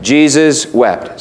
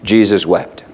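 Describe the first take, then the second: First: "Jesus wept" said slowly, each word spaced out; slow recitation. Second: Said in the usual way. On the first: Shown as a demonstration. Preacher leading the congregation through a memory verse, slowly. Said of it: "We'll try it". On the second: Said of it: "John eleven thirty-five".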